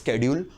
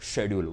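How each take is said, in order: First: The word begins with an 'sk' sound. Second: The word begins with an 'sh' sound. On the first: "you can pronounce it as a स्केड्यूल" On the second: "और शेड्यूल, what ever pronunciation you want to do"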